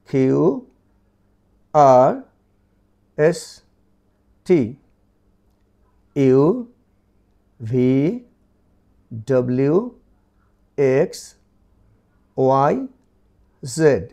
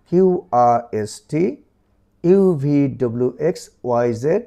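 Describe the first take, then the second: First: The letters are recited slowly, one by one. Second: The letters are recited quickly in a run. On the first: "আমি পড়ার সুরেই বলছি" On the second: "এবার যদি একটু দ্রুত পড়ি"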